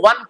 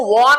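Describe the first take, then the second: First: वन with a short "uh" vowel; correct pronunciation. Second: वॉन with a long rounded "aw" vowel; mispronunciation. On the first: Teacher shows how won is read, short-vowel वन. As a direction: say वन just like "one". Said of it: "W O N को वन पढ़ते हैं". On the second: Teacher warns how not to read won, drawn-out वॉन. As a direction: say वॉन as "wawn". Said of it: "W O N को वॉन नहीं पढ़ते". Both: Shown as a demonstration.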